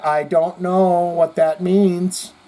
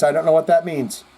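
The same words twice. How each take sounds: First: Stretched slowly, word by word; slow drawn-out repeat. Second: Said in the usual way. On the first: Shown as a demonstration. Telling the viewer he doesn't get the comment, very slowly. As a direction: drag it out slowly and pointedly. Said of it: "All right, dear". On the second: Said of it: "What does that mean?".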